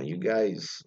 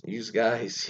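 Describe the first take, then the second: First: Said in the usual way. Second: Philadelphia "youse guys", with an added S; Philadelphia accent. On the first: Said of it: "Philadelphia always add S's". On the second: Shown as a demonstration. Host showing Philadelphia's added S's, Philadelphia accent. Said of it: "add S's for things don't need S's".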